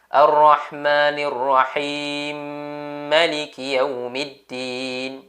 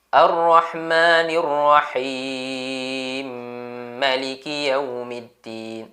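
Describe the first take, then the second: First: The vowel in Rahim is held two counts. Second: The vowel in Rahim is held four counts. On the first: "Jadi kalau tuan-tuan baca dengan dua, lebih kurang macam ni lah" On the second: "Kalau tuan-tuan baca empat, lebih kurang macam ni"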